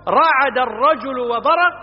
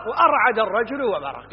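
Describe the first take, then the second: First: Slow, higher رعد starting straight on RA; form without hamza. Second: وأرعد with a glottal a- before the R; form with hamza. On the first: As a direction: stretch out رعد with no leading a-. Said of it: "فيصح أن تقول". (نطق رعد ببطء بلا همزة في أولها) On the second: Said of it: "يجوز". (نطق وأرعد بهمزة قبل الراء) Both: Shown as a demonstration.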